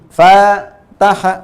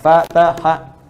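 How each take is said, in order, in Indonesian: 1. Suku kata pertama dipanjangkan, yang lain pendek. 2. Ketiga suku katanya sama-sama pendek. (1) "fa yang pertama... supaya dibaca panjang" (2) "sekarang ini kan satu harakatnya kan?"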